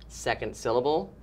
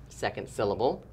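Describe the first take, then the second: Both takes have the same delivery.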